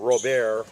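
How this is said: The name is pronounced the French way.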